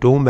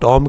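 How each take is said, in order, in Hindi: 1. स्वर लंबी 'oo' ध्वनि है। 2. स्वर छोटी 'o' ध्वनि है। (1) "ये टूम है" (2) "ये गलत है"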